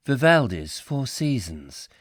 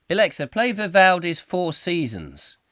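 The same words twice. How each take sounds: First: Lightly mimicked, slow announcement; smart speaker reply. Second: Higher, louder imitated command. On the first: Alexa announces the classical piece, in a slow imitated reply. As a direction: read it back slowly like an assistant. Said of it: "it'll go". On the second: User asks Alexa for classical music, as a raised command. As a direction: address the machine up and loud. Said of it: "If you say to it".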